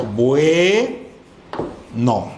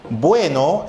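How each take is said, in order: First: "Bueno" split slowly into bue-no, first syllable held long; syllabified BUENO. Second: Said in the usual way. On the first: Shown as a demonstration. Teacher showing students how to divide the word, syllable by syllable on "Bueno". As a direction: draw out "Bue", pause, then drop "no". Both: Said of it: "vamos nosotros a silabear".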